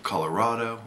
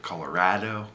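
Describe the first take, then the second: First: "Colorado" with an open "ah" in the third syllable; -rah-do ending. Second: "Colorado" with a flat a as in "mad"; -rad-o ending. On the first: Vlogger offering viewers one option, rah-do pronunciation. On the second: Vlogger offering viewers the other option, rad-o pronunciation. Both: Shown as a demonstration. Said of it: "How do you say it?".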